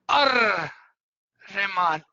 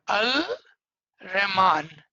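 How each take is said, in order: First: The L is silent and merges into R. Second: The L sound is pronounced before Rahman. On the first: This is how it is said aloud. "if you are saying it together, it would be Ar Rahman. The L will become silent" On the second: This is how it is written. "If what is written over is Al Rahman"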